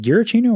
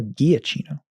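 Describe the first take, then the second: First: Giacchino said "Gheer-a-CHEE-no", with an r; first pronunciation. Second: Giacchino said "Ghee-a-CHEE-no", with no r; alternative pronunciation. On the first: Co-host checking the name, Giacchino as "Gheer-a-CHEE-no". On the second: Co-host offering the other option, Giacchino as "Ghee-a-CHEE-no". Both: Shown as a demonstration. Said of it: "make sure I'm saying his name right".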